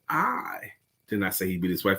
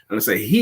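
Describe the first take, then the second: First: The stress falls on the word I. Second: The stress falls on the word he. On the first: The speaker personally did not say it. "That means me in specific" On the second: It may have been another person. "It could have been somebody else"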